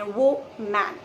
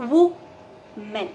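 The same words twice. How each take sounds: First: "वो man" said as two parts, vo plus English man; wrong pronunciation. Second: "woman" said WUH-mun, first syllable like wuh, second a light mun; correct pronunciation. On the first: Teacher showing students the common mistake, vo-man. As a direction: mispronounce woman as vo-man, stressing man. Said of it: "man शब्द को उसमें वो में लगा के pronounce कर देते हैं". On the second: Teacher showing students the right way, WUH-mun. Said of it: "the correct pronunciation of this word is". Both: Shown as a demonstration.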